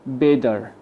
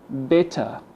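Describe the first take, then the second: First: It is said with an American accent. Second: It is said with a British accent. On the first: "the Americans say better" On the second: "The British people say better"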